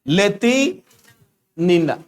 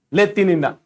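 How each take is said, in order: First: लेतिनिना drawn out slowly in two parts, ले-ति, then नि-ना; slow, split name. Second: Said in the usual way. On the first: Shown as a demonstration. Teacher dictating a hard Russian name to students, slowly, in parts. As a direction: say लेतिनिना very slowly, pausing midway.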